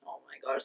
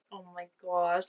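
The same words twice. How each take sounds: First: Whispered gush. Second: Said in the usual way. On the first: Real, not acted. Gushing over cute couple.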